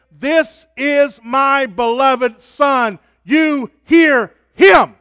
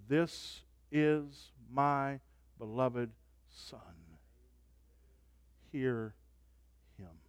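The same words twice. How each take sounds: First: Higher, louder, slow shouted proclamation; booming voice of God. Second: Softer, slow, solemn quote; hushed voice of God. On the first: Preacher shouting God's words from the cloud, slow and loud. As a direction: thunder it out. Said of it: "He says". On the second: Preacher voicing God from the cloud, softer and slow. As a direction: hush it with awe. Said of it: "The voice says". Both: Acted.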